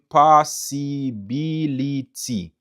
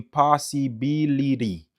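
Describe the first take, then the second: First: "possibility" syllable by syllable with a crisp T ending; student's pronunciation. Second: "possibility" with a soft tapped ending, pa-si-bi-li-ri; student's pronunciation. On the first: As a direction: say "possibility" slowly as pa-si-bi-li-ti. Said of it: "Benson di m". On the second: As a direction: end "possibility" in -ri instead of -ti. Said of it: "Diables di m". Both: Retold or imitated.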